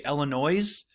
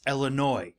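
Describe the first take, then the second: First: The final S sound is pronounced. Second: The final S sound is silent. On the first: The speaker calls it wrong. "A lot of people say Illinois. Nope" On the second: The speaker calls it right. "You don't say the S"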